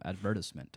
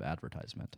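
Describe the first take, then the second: First: It is said the Trinidadian, British-influenced way. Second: It is said the usual American way. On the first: "My Trinidadian friend... they say advertisement" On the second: "instead of advertisement"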